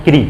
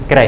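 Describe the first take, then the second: First: "क्री" said "kree", with a long ee; सही उच्चारण. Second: "क्रय" read as "kray", with an ai vowel; the misreading "क्रय", rhyming with "ray"; गलत उच्चारण. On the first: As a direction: end "क्री" on a clear ee, not ay. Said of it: "ये क्रय नहीं, ये क्या है". ("क्री" में लंबी ई बोलें) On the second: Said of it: "ये क्रय नहीं पढ़ते इसको". ("क्रय" को "क्रै" जैसा बोलें) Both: Shown as a demonstration.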